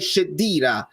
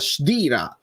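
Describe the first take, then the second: First: A clear vowel follows the opening sh sound. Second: No clear vowel follows the opening sh sound. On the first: The speaker calls it wrong. "dicono magari Sheddira" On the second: The speaker calls it right. "senza la E troppo pronunciata"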